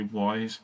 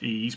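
First: The name sounds like 'wise', starting with w. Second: The name sounds like 'ease', with no w sound. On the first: "a lot of people say Wise" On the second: "I think it's pronounced Ease"

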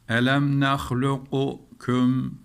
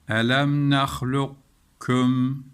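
First: The qaf is released with a bounce before kaf. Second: The qaf merges into a doubled kaf sound. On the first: The speaker calls it wrong. "Bu kaideyi bilmezsek bir okuyalım. ... Dolayısıyla galgale yaparız" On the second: The speaker calls it right. "Kef'in üzerine hemen bir şedde veriyoruz hayalimizde. Okuyalım o şekilde"

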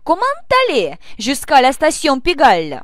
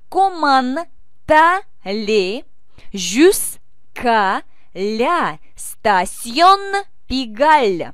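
First: The sentence is spoken quickly. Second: The sentence is spoken slowly. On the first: "и побыстрее" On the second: "Давайте медленно произнесем и вместе"

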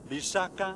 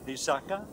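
First: One low syllable, then two high syllables. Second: Two low syllables, then a high final syllable. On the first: It means a poison. "if I use a low and two high tones" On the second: It means a promise. "with two low and one high tone"

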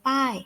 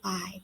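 First: The syllable is said with a falling tone. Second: The syllable is said with a low tone. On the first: "โท" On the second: "เอก"

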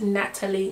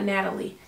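First: The T sound is clearly pronounced. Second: The T sound is softened, not clearly pronounced. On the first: The speaker calls it right. "it's Natalie, Pronounce the T" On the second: The speaker calls it wrong. "not Natalie"

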